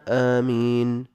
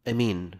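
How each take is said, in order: First: The first vowel is long and the m single. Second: The first vowel is short and the m single. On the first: "أفصحهن وأشهرهن آمين بالمد والتخفيف" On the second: "بالقصر والتخفيف"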